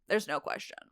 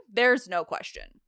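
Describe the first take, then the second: First: Soft, falling afterthought; quieter repeat. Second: Said in the usual way. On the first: Acted. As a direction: drop the volume, as a muttered aside.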